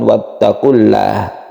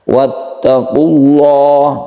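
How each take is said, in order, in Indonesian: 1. Bunyi L itu ringan dan tipis. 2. Bunyi L itu berat dan tebal. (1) "jadi bukan" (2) "dibacalah dia itu menjadi tafkhim atau tebal"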